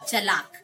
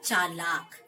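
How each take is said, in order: First: The first vowel is short. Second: The first vowel is long. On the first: The speaker calls it wrong. "अपना यही शब्द का उच्चारण करते हैं चलाक" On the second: The speaker calls it right. "जबकि हमें क्या उच्चारण करना है? चालाक"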